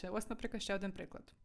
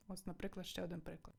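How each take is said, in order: First: Said in the usual way. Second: Much softer repeat. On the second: Shown as a demonstration. Teacher repeats the phrase softer.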